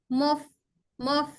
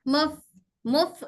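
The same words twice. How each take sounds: The two takes are said the same way.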